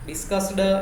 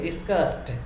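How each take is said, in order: First: The final d is separated from the s. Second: The s and d are said together. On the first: The speaker calls it wrong. "એવું નહીં" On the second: The speaker calls it right. "સ અને ડ ખાસ ભેગા બોલવાના છે"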